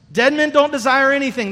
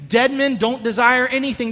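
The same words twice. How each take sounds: First: "don't" punched a bit harder as the key word; stress on don't. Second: Said in the usual way. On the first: Shown as a demonstration. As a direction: lean into "don't" to drive the point home.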